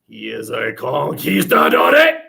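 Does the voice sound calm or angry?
calm. It is said calmly, rising in pitch.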